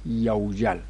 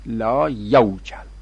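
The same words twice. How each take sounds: First: یوجل said as the correct yawjal form. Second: لا یوجل said slowly as the wrong form the book printed. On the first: Teacher correcting the book with the proper form. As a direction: give the right form یوجل plainly. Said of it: "وجل یوجلوه دیگه". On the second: Teacher reading out the book's mistaken form slowly. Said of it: "این غلطه". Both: Shown as a demonstration.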